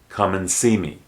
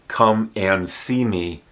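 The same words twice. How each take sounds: First: The word 'and' is reduced to an n. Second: The word 'and' is said in full.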